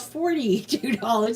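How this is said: The R in forty is pronounced. This is the speaker's own pronunciation. The speaker calls it right. "It has an R in there"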